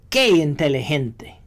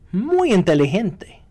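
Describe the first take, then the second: First: It is said sarcastically, meaning not clever. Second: It is said as sincere praise.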